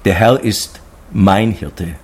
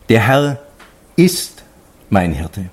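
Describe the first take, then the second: First: The stress falls on the word mein. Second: The stress falls on the word ist. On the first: The shepherd belongs personally to me. "Und für mich das Größte" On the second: It truly is so, despite all doubts. "gegen alle Zweifeln ... dieses Ausrufezeichen zu setzen"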